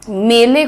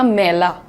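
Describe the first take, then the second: First: It is said with the standard Hindi vowel. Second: It is said with the Sitapur accent's changed vowel.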